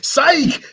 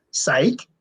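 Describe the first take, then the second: First: Very high-pitched jeering exclamation; crowd's incredulous outcry. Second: Said in the usual way. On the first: Retold or imitated. People mocking Chad's fake punch, incredulous outcry. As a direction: echo it back like an outraged onlooker. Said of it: "people are like". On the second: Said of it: "and he goes".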